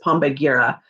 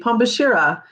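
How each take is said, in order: First: The consonant before the last syllable is hard g. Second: The consonant before the last syllable is sh. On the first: The speaker calls it wrong. "but that's not how you pronounce it" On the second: The speaker calls it right. "It doesn't look like it says Pombashira, but it does"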